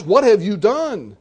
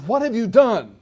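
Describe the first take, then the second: First: Louder, slower, exasperated demand. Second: Said in the usual way. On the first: Retold or imitated. Pilate demands an answer from silent Jesus, exasperated. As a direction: lean on "have", fed up. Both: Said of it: "Pilate is very exasperated".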